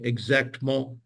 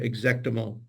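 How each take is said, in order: First: The middle vowel is dropped between consonants. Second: The middle vowel is pronounced between consonants. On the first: The speaker calls it wrong. "instead of saying" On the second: The speaker calls it right. "You'll hear that muty sound in the middle"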